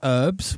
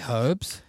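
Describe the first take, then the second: First: The word starts without an h sound. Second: The word starts with an h sound. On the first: This is the American way of saying it. "Americans say herbs" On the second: This is the British way of saying it. "We say herbs"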